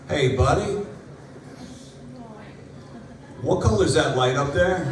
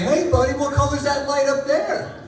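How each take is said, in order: First: It sounds like an anxious, genuine question. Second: It sounds like a playful quizzing question.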